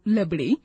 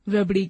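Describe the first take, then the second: First: The word begins with an L sound. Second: The word begins with an R sound. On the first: The speaker calls it wrong. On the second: The speaker calls it right.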